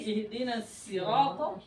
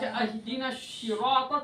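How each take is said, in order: First: The word sirata begins with an s sound. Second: The word sirata begins with an sh sound. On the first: The meaning stays the same. The speaker calls it right. "kalau Anda membaca sin ihdina sirata artinya sama" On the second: The word has no meaning. The speaker calls it wrong. "tidak ada artinya"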